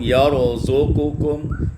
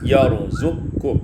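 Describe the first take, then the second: First: A vowel separates the q and k sounds. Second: The q runs straight into the k sound.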